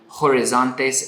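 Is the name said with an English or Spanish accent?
English. The name is said with an English accent.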